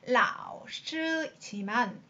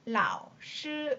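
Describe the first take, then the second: First: The first syllable dips and rises again fully. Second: The first syllable only dips low, without rising. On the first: The speaker calls it wrong. "원래는 라오스지만 힘이 들기 때문에" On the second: The speaker calls it right. "반만 라오스 이렇게 발음을 해준다"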